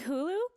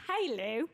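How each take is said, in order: First: It is said in a plain American accent. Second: It is said in a put-on British accent.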